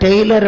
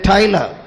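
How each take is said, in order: First: The first vowel sounds like 'day'. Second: The first vowel sounds like 'eye'. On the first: This is how everyone else called him. The speaker calls it wrong. "எல்லாரும் அவரை டெய்லர் அப்படின்னு தான் கூப்பிடுவாங்க" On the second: This is how the man says his own name. The speaker calls it right. "அவருடைய பேரு டைலர்"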